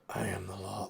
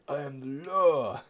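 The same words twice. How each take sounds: First: It is said flatly and angrily, without extra emphasis. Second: It is said theatrically, with exaggerated lip movement. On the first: "he doesn't put any extra emphasis on the line at all" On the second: "says it all hammy"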